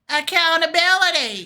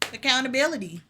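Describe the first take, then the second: First: It is said louder. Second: It is said at normal volume.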